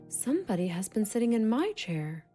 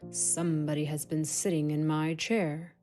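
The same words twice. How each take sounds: First: It is said in a medium-pitched voice. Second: It is said in a big, deep voice.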